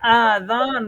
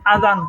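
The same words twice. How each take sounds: First: The first vowel is stretched out long. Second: The first vowel is short and not stretched. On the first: It means ears. The speaker calls it wrong. "যদি আলিফের মধ্যে টান দেন তাহলে কিন্তু এটা কান হয়ে যাবে" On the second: It means the call to prayer. The speaker calls it right. "আযান বললে হচ্ছে আযান হবে"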